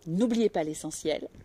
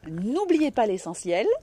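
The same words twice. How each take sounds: First: It is said a little more quietly. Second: It is said very loudly, with strong voice. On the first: The speaker calls it right. "Un peu moins, un peu moins fort" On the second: The speaker calls it wrong. "vous avez du coffre et ça sature un peu les micros"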